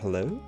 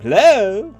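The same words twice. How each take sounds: First: It is said more quietly. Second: It is said more loudly.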